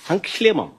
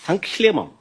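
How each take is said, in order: Both takes have the same delivery.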